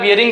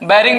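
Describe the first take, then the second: First: The first syllable sounds like 'bee-ya'. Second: The first syllable sounds like 'bai'. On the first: This is the standard technical form. "Technical में हम लोग बियरिंग जो है इसका शुद्ध word है" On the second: This is the common village form. "गांव में लोग बैरिंग भी बोलते हैं"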